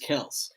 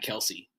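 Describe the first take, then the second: First: The name has one syllable, with no ee. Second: The name has two syllables, ending in ee. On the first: The speaker calls it right. "That's how you pronounce it. The Y, I guess, is silent" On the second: The speaker calls it wrong. "we have been saying his name wrong. It's not Kelsey"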